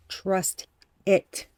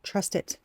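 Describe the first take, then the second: First: Said in the usual way. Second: Whispered softly; whispered trust it. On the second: Real, not acted. Reassuring the viewer in a whisper. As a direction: breathe trust it.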